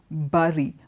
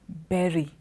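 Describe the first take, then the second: First: The word rhymes with curry. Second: The word rhymes with cherry. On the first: The speaker calls it wrong. "we say bury, like we say curry" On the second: The speaker calls it right. "it rhymes with berry, cherry"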